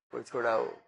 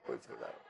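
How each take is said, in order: First: Lightly voiced plea for help, falling; a hint of begging someone to untie him; mock plea. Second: Voiceless, much softer, trailing off; whispered plea. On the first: Bound man begging anyone to free him, mock plea. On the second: Acted. Bound man's plea fading into a whisper. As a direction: breathe the plea out as it dies.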